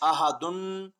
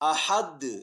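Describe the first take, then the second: First: The word ends with an added vowel and n. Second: The word ends on a bare d consonant. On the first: "अहदुन है" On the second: "वक्फ की वजह से हम दाल को साकिन कर देंगे"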